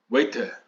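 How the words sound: It is said with a British accent. "se você estiver no Reino Unido, por exemplo, você vai ouvir waiter"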